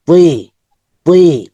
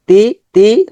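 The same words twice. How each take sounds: First: "উই" as a heavy emphatic t gliding into i; thick sound. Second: Said in the usual way. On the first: Shown as a demonstration. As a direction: thicken "উই" with rounded lips. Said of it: "এটা মোটা হবে". ("উই" মোটা করে, ঠোঁট জমিয়ে) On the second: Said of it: "normal sound হচ্ছে".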